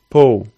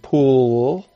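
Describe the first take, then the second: First: The final L is said as a quick, light, dark sound. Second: The final L is said as a full, clear sound. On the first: "I might say pull. It's really quick" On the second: "instead of saying pull"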